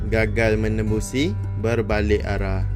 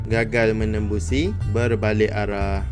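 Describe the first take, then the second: Both takes have the same delivery.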